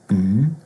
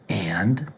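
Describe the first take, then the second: First: It is said as a bare n sound. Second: It is said as a full 'and'. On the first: "we might hear just n" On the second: "Instead of saying and"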